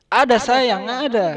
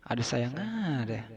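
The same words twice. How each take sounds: First: High, loud, cooing ada sayang; sweet reply. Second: Quiet, slow ada sayang echoed in disbelief; muttered repeat. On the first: Voice behind the door answering sweetly, high and loud. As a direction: coo it like an endearment. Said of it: "Terus dia bilang". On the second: Narrator echoing the odd reply to himself, quiet and slow. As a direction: mumble it back, deadpan. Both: Retold or imitated.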